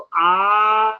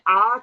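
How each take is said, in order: First: The vowel is stretched out extra long. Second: The vowel is held at normal length. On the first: "आ को ही और थोड़ा लंबा किया" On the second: "जैसे हमने आ कहा"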